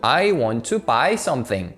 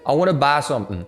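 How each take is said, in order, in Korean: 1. 'I'와 'buy'는 끝이 미끄러지는 완전한 모음이에요. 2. 'I'와 'buy'는 평평한 'ah' 모음이에요. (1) "이렇게 하면 되는데" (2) "왜 자꾸 아, 바 막 이러냐고"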